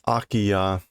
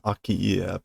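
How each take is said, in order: First: The word ends with a 'yah' sound. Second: The word ends with an 'ee-eh' sound. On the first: The speaker calls it right. "Akiya is the pronunciation" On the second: The speaker calls it wrong. "I've been pronouncing this Akiie"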